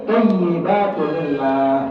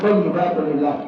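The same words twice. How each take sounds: First: The vowel in lillah is drawn out long. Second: The vowel in lillah is cut short. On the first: The speaker calls it right. "panjang ini gitu" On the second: The speaker calls it wrong.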